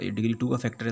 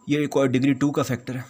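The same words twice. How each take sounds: First: Said in the usual way. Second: "degree टू का" pushed higher and louder; emphatic. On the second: Shown as a demonstration. Teacher stressing to students that it has degree two, higher and louder. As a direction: hit "degree टू" to drive the point home. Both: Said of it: "ये power टू आ रही है".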